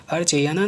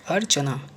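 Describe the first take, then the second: First: अर्चयाना with extra "ya", pitched up; wrong pronunciation. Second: अर्चना as simple "ar-cha-naa"; correct pronunciation. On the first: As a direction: say "ar-che-yaa-naa" for अर्चयाना. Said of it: "अर्चयाना नहीं". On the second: Teacher showing the simple form, अर्चना in three syllables. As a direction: say अर्चना plainly, no "ya". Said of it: "simple सा". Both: Shown as a demonstration.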